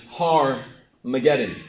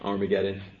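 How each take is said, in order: First: The word begins with an h sound. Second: The word begins without an h sound. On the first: This is the form the Bible uses. "Listen to the way I'm saying this" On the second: This is the familiar form. "you've heard it right"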